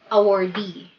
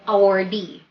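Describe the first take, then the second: No difference in how they are said.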